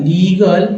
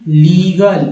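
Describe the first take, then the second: No difference in how they are said.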